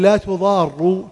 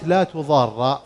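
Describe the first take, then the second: First: The word ends with a u vowel. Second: The word ends with an a vowel. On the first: It states that no harm is caused, meaning a prohibition. "تصبح كأنها خبر" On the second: It forbids causing harm. "حركت بالفتح لالتقاء الساكنين"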